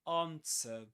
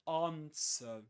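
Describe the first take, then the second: First: It is said with a British accent. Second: It is said with a British accent.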